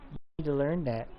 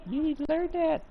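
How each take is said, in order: First: Said in the usual way. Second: Said again much higher; playful high-pitched scold to the cat; high squeaky scolding. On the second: Real, not acted.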